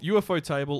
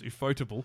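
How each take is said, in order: First: UFO is spoken as three separate letters. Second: UFO is blended into one spoken word. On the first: The speaker calls it wrong. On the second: The speaker calls it right. "also known correctly as Ufotable"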